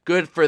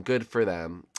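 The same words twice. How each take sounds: First: Raised, louder exclamation; punchy, higher-pitched cheer; emphatic congratulation. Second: Said in the usual way. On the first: Real, not acted. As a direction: push it out high and strong. Mock congratulation, repeated.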